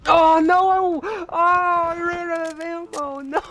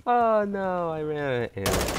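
First: Very high, loud, drawn-out wail; panicked scream. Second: High start sinking steadily to usual pitch; deflated lament. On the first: Gamer out of ammo mid-fight, panicked wailing scream. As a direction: scream it out in real dismay. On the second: Gamer out of ammo after losing, deflated sinking moan. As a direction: let the wail slide down into defeat. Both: Real, not acted.

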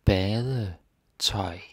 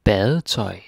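First: Word stretched out, split in parts; drawn-out, segmented pronunciation demo; slow teaching repetition. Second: Said in the usual way. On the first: Shown as a demonstration. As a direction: model it slowly for learners, part by part. Teacher repeats the word slowly.

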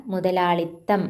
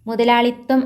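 First: Calm model of മുതലാളിത്തം; correct form. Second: മുതലാളിത്തം said higher and louder as the rejected form; wrong form. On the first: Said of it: "ആണ്". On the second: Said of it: "അല്ല". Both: Shown as a demonstration.

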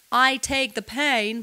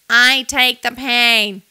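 First: Said in the usual way. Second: Louder, nasal, close to tears; nasal near crying. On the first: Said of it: "So it's not". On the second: Shown as a demonstration. Vocal coach says it nasal, as if about to cry. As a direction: let it go nasal as if almost crying. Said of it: "a little nasal actually on purpose".

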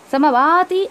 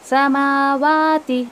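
First: समावाती said quickly, vowels clipped short; wrong reading. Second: समावाती said very slowly, each vowel held; correct reading. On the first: Teacher shows students the mistaken समावाती. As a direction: rush through समावाती as the wrong example. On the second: Teacher models the correct समावाती for students. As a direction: recite समावाती slowly with a falling end. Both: Shown as a demonstration. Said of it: "ऐसा भी नहीं पढ़ना है".

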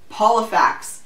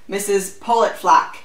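First: Polifax said clearly as POL-i-fax; gentle correction. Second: Garbled surname Politflack, with FLACK at the end; name misread. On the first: Visitor correcting her garbled surname, gently saying Polifax clearly. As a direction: point out Polifax gently, without the stray T. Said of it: "she pointed out gently". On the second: Baffled official fumbling the visitor's name, misread as Politflack. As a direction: say Politflack with an extra T and L. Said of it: "he murmured, obviously baffled". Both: A narrator's reading.

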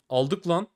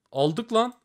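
First: Said in the usual way. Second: Higher, thrilled yelp; cheering a lucky win; excited. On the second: Real, not acted. Win after case upgrade.

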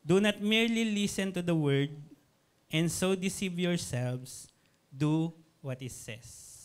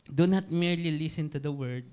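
First: Slow, weighty reading of the verse; preached verse, slow and emphatic. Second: Said in the usual way. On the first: Shown as a demonstration. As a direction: lean on each word of the verse, slowly. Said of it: "Again, I repeat". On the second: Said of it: "first quick mention of verse".

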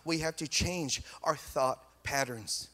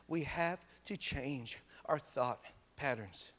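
First: Said in the usual way. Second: "We have to change our thought patterns" repeated slowly and much softer; slower, softer repeat. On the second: Shown as a demonstration. Pastor repeating for emphasis, slow and soft.

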